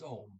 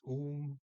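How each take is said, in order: First: The vowel is a short o. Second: The vowel sounds like oo. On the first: The speaker calls it right. "The O there is pronounced as a short O" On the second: The speaker calls it wrong. "I said maybe it's Um. No"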